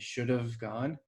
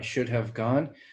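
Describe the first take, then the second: First: The word 'have' is reduced to 'of'. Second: The word 'have' is said in full. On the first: "Maybe the have will reduce to an of" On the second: "we don't say it like that"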